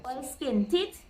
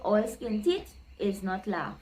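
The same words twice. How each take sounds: First: "All skin teeth" said slowly and lifted; slow emphatic saying. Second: Said in the usual way. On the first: Shown as a demonstration. Teacher announcing the Trini proverb, slow and rising. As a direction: lean on "teeth" with a slow rise. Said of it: "is no laugh". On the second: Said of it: "Trini people would say".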